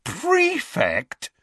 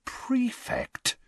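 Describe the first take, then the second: First: High-pitched, astonished repeat; incredulous. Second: High, hushed disbelief; incredulous. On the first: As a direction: squeal the word in disbelief. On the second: Brother reading the letter over Ron's shoulder, incredulous. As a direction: softly squeak it in disbelief. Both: A narrator's reading. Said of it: "staring incredulously at the letter".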